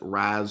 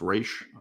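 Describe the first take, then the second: First: The name ends in a 'z' sound. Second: The name ends in an 'sh' sound. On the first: Some people say it this way. "some people pronounce it" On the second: This is the official way. "It is pronounced Raish officially"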